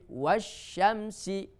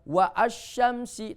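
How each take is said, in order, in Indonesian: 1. Kedua kata menyatu tanpa hentian. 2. Hentian glotis memisahkan kedua kata. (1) "tapi wasyamsi" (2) "Bukan wa asyamsi"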